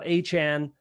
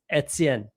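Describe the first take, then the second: First: The name starts with an 'ay' vowel. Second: The name starts with an 'eh' vowel. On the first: The speaker calls it wrong. "it's not H-N" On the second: The speaker calls it right. "you absolutely say the E"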